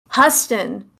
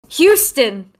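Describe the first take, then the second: First: The name is said in an altered, unusual way. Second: The name is said in its usual way. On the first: It imitates a character's accent mangling the name. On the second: It is the normal way to say the name.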